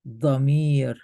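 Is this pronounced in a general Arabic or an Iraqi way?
general Arabic. It is pronounced in a general Arabic accent. "let me read it like the rest of the Arabic countries"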